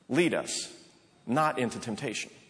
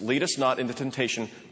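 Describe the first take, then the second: First: It is said with a pause after 'Lead us'. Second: It is said without a pause after 'Lead us'.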